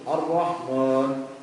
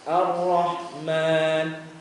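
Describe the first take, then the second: First: The 'a' vowels are mumbled like grumbling. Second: The 'a' vowels are open and fully clear. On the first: The speaker calls it wrong. "Jangan harokat fathahnya seperti orang ngegerutu" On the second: The speaker calls it right. "kalau kita mengucapkan harokat fathah jelas"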